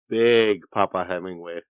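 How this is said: It is said in a suggestive, leering voice. The speaker calls it right. "it needs to sound pervier"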